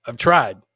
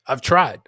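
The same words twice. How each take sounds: The two takes are said the same way.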